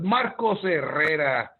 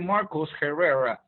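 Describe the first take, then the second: First: The name is pronounced with Spanish sounds. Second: The name is pronounced with English sounds. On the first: The speaker calls it right. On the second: The speaker calls it wrong. "I don't say"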